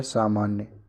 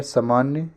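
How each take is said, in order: First: Said in the usual way. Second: सामान्य begun as sa-maanya; short first vowel. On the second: Shown as a demonstration. Teacher contrasting two words, short first a in सामान्य. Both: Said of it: "यह सामान्य".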